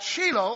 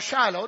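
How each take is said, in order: First: The name is pronounced the Hebrew way. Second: The name is pronounced the English way. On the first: "depends on which way you pronounce it, Hebrew or English" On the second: "Hebrew or English"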